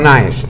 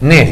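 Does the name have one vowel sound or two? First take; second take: two; one. First: The name has an a before the e. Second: The name has a single e vowel. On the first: The speaker calls it wrong. "la A no se pronuncia en sueco" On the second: The speaker calls it right. "Nes, no Naes"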